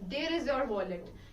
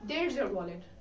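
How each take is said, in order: First: 'There is' is said as two separate words. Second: 'There is' is merged into one syllable. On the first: The speaker calls it wrong. "You you don't have to say there is" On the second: The speaker calls it right. "It sounds fluent automatically"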